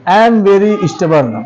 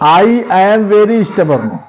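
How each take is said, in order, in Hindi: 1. I और am एक ही syllable में जुड़ जाते हैं। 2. I और am दो अलग-अलग शब्दों के रूप में बोले जाते हैं। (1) "आई एम को मिला के बोल सकते हैं।" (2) "ये जो आई एम है इसको आप लोग अलग भी बोल सकते हैं।"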